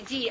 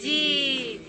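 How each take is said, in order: First: A brief "di", vowel not held; short kasra vowel. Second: A long, drawn-out "di"; long kasra vowel. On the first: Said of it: "we have the kasra". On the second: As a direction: DI held long. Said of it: "which is the long vowel". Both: Shown as a demonstration.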